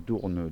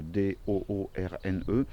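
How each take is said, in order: First: Said in the usual way. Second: "D O O R N E" spelled out slowly, one letter at a time. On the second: Shown as a demonstration. Spelling Doorn for viewers, slow letter by letter. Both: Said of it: "Van Doorn s'écrit".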